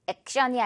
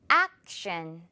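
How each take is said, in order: First: Said in the usual way. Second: 액션 with 액 drawn out and the mouth wide; 액션, lower with a long open 액; open long ack. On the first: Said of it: "액 부분 조금 더 입을 크게, 길게". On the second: Shown as a demonstration. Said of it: "크게, 길게 늘어뜨려서 액".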